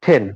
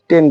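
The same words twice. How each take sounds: First: "টেন" with a puffed, aspirated t. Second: "টেন" with an unaspirated t; "টেন" the common way, hard t; old pronunciation. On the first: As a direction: release air after the t in "টেন". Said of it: "এটা হবে". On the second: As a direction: say "টেন" with no puff after the t. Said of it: "আমরা এর আগে টেন বলতাম". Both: Shown as a demonstration.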